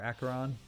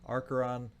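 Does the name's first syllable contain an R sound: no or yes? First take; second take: no; yes. First: The first syllable has no R sound. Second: The first syllable has an R sound. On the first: The speaker calls it right. "I don't think there's an R at the beginning there" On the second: The speaker calls it wrong. "I say it wrong"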